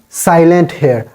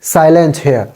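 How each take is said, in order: No difference in how they are said.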